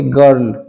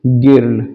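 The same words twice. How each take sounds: First: Put-on गर्ल said with a short "ur" vowel, like English girl; गर्ल spoken as gurl, not with an i sound; correct girl. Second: गिर्ल said with a short i vowel, slowly; slow deliberate mispronunciation गिर्ल; wrong girl. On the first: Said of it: "इसको हम बोलेंगे गर्ल". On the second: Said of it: "न कि गिर्ल". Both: Shown as a demonstration.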